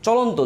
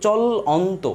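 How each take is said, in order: First: Said in the usual way. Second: "চলন্ত" slowly, drawn out in separate beats; split into syllables. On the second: Shown as a demonstration. Teacher showing the steps in a word, split into syllables. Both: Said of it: "দেখেন দুইটা স্টেপে বা তিনটা".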